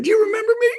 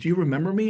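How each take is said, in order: First: Very high, loud, eager question; all excited. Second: Said in the usual way. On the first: Acted. Caller hoping an old contact remembers them, all excited. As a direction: burst out with gleeful, squealing eagerness. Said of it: "I may be all excited". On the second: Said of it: "She goes".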